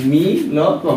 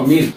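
First: মি ল ক, each part said apart with small gaps; মি ল ক spelled out piece by piece like a teacher; split into syllables. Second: Said in the usual way. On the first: Shown as a demonstration. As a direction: break মি ল ক into its pieces for the student. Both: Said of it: "milk উচ্চারণ".

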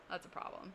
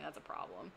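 First: Breathy whispered repeat. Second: Said in the usual way. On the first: Shown as a demonstration. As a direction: drop to a whisper for emphasis.

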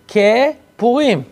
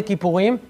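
First: כפורים split into "ke" and "Purim", drawn out; split word. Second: Said in the usual way. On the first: Shown as a demonstration. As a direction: stretch "ke", pause, then "Purim" in כפורים. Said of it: "מה זה כיפורים". (כפורים בשתי מילים, "כְּ" ואז "פורים", לאט)

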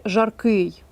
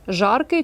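First: "жаркий" stressed on final КИЙ; stress on ending. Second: "Жаркий" stressed on ЖАР; stress on first syllable. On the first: Teacher offers second choice slowly, stressing жарКИЙ. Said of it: "«ий» має бути закінчення наголошене". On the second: Teacher offers first choice slowly, stressing ЖАРкий. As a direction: hit the start: ЖАРкий. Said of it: "чи". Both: Shown as a demonstration.

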